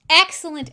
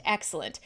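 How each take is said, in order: First: "excellent" pushed louder and higher; "excellent" hit hard like a hype call; emphatic excellent. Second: "excellent" dropped low and soft; "excellent" muttered away as an afterthought; trailing echo. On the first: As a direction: punch "excellent" with relish. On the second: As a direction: let "excellent" fade like an echo. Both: Shown as a demonstration. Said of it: "this one is excellent".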